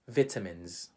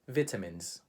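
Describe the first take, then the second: First: It is said with a British English pronunciation. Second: The same.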